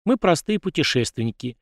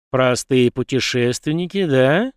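First: Said in the usual way. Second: Slow, mocking repeat with a rise; smirking. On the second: A narrator's reading. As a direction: drawl "Простые путешественники" back slowly, sneering, rising on "да". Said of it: "ухмыльнулся тот".

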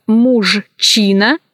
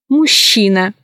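First: Slow мужчина, cut as муж-чина; spelling pronunciation. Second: Мужчина said as мущина; ZHCH as Щ. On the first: Teacher showing how мужчина is written, spelled-out reading. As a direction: sound Ж and Ч apart in мужчина. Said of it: "Пишется". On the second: Teacher showing how мужчина is pronounced, merged Щ. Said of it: "произносится". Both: Shown as a demonstration.

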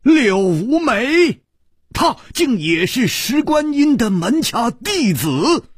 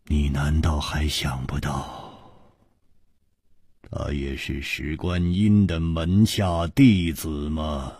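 First: High, loud cry of disbelief; astonished. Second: Low, measured, sighing delivery; word by word. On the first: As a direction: exclaim it in shock, pitch shooting up. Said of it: "都不禁大吃了一惊". (大吃一惊，高声惊呼) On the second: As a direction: spell it out gravely, one word at a time. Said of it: "长长的叹了一口气，一字字的说". (长叹一声，一字一字地低声说) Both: A narrator's reading.

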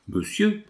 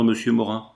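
First: Much higher, rising in astonishment; dumbfounded echo. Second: Said in the usual way. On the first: A narrator's reading. Morin echoes Coralie's cold word, dumbfounded. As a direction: repeat it as if you can't believe it. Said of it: "répéta Morin, tout ébahi". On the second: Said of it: "Coralie addresses him coldly".

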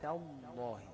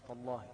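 First: تالله with a thin, light ta and a heavy lam; correct pronunciation. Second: تالله with a thick, heavy ta; تالله said with the ta puffed up like the lam; wrong pronunciation. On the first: Teacher showing students the right way, a light ta. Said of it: "لا، تاء،". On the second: Teacher showing students the mistake, a heavy ta. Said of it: "مرققة، مش تالله". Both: Shown as a demonstration.

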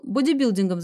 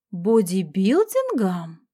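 First: Said in the usual way. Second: Slow, incredulous echo leaping in pitch; astonished cry. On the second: A narrator's reading. Detective echoing surprising news from her friend, astonished. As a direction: draw out БОДИБИЛДИНГОМ in amazement. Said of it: "поражённая вскричала я".

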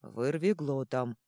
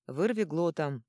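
First: Slow, drawn-out correction; correcting. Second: Said in the usual way. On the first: A narrator's reading. Troll correcting his own name, slowly drawn out. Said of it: "подсказал тот". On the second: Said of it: "Яго от него отмахнулся".

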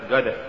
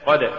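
First: غد said "gad", hard g for ق; faulty reading of قد as "gad"; mispronounced ق. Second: Said in the usual way. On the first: Shown as a demonstration. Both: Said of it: "تقرأ لحنا".

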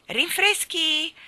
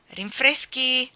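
First: High, loud, slow butler call; drawn-out announcement of "Rinfreschi"; butler announcing. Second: Loud, slow repeat of "rinfreschi", less high; the butler calls it once more. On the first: (annuncio del maggiordomo alto e lento) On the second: (ripetizione lenta e forte) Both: Acted. Maggiordomo annuncia i rinfreschi.

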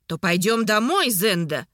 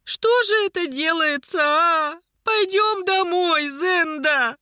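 First: Said in the usual way. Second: High-pitched, drawn-out wailing plea; lamenting, stretched words, pitched way up; village-granny lament. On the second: A narrator's reading. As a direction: wail like an old village woman. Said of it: "как деревенская старушка".

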